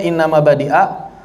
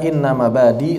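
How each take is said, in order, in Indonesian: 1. Hamzah terdengar di akhir mabadi'a. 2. Tidak ada hamzah di akhir mabadi. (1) "Aslinya inna mabadi'a" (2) "membaca inna mabadi tanpa hamzah"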